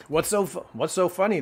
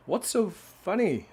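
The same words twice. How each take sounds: First: Higher, louder goose voice. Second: Slow, high cow voice. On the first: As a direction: ask it as the giggling goose. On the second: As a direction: ask it slowly as the cow. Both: Acted. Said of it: "what's, I read that, Missus Mooley".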